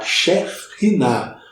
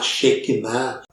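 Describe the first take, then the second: First: The middle consonant is a raspy aspirated breath. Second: The middle consonant is a plain hard k. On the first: This is the original Hebrew form. The speaker calls it right. "a pronúncia certa era, era Shekhinah, é um R aspirado" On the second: This is the common Portuguese-style form. The speaker calls it wrong. "a gente pode considerar até portuguesado"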